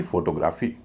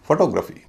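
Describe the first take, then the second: First: फोटोग्राफी said the common way, full vowels, stress on gra; wrong pronunciation. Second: फोटोग्राफी said with light first o, heavy second o, light a: fo-TO-gra-phy; correct pronunciation. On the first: Teacher showing the mistaken फोटोग्राफी to avoid. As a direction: say फोटोग्राफी as most people wrongly do, FO-to-GRA-fee. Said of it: "न कि फोटोग्राफी". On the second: Teacher demonstrating the right way to say फोटोग्राफी. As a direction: stress the second syllable of फोटोग्राफी, reduce the others. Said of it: "पहले ओ का उच्चारण हल्का, दूसरे का भारी".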